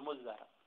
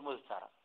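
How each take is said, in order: First: The middle consonants are a doubled dh. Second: The middle consonants are dh followed by t. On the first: The t has merged into the preceding consonant. The speaker calls it right. "أو أن تدغم التاء بالدال فتقول مزرع" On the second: This is the underlying form, not used in real speech. The speaker calls it wrong. "لا تقول مزترع. أقوله لك أنا تمرينا لكن ليس فصيحا"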